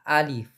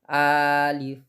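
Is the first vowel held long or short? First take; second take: short; long. First: The first vowel is short, not stretched. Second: The first vowel is stretched out long. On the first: The speaker calls it right. "bacanya ya alif" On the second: The speaker calls it wrong. "bukan alif"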